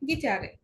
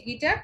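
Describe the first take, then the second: First: "গিটারে" as gi-TAA-reh, falling at the end; German pronunciation. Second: "গিটার" as gi-TAR, ending on the R; English pronunciation. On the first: Teacher comparing German with English, German pronunciation. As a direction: add a final "eh" to "গিটারে". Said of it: "ডয়েসে গিটারে". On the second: Teacher comparing English with German, English pronunciation. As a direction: say "গিটার" in two syllables, no final vowel. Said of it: "ইংলিশে গিটার". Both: Shown as a demonstration.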